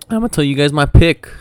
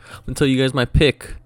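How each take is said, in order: First: Voice cracking. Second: Said in the usual way. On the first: Real, not acted. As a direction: voice cracks up high. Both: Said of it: "I think my voice just cracked".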